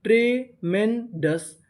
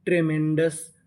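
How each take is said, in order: First: ट्रेमेंडस slowly in three separate parts; syllable by syllable. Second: Said in the usual way. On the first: Shown as a demonstration. Teacher builds a word for learners, ट्रेमेंडस slowly broken up. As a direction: pause between the pieces of ट्रेमेंडस. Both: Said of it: "तो meaning क्या बनी?".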